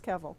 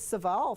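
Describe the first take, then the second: First: The name begins with a K sound. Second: The name begins with an S sound. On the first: This is how the name is really said. The speaker calls it right. "Found out later it was Kevall" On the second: This is how she said it for years. The speaker calls it wrong. "It was Saval for a long time"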